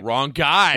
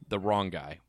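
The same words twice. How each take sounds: First: It is exclaimed loudly with emphatic energy. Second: It is said flatly, without exclamatory energy. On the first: The speaker calls it right. "Exclamation point" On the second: The speaker calls it wrong. "You didn't say it right"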